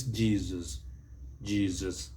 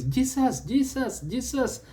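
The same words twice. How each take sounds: First: Jesus as JEE-zus, voiced z, falling lower; Z pronunciation. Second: Jesus with a hissed s in the middle, much higher; mispronunciation. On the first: Teacher applies the vowel rule, Z-sound pronunciation. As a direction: draw out Jesus with a buzzing middle z. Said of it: "it takes the Z sound". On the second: Teacher shows what not to do, mispronounced Jesus. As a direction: fire off high-pitched JEE-sus. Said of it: "What you must not do is". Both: Shown as a demonstration.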